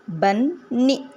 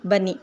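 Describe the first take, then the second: First: बन्नी in two beats with a drawn-out नी; split syllables. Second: Said in the usual way. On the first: Shown as a demonstration. Teacher showing the ee ending of bunny, split syllables. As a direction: say बन, pause, then नी. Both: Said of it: "ये sound निकालेगा ई".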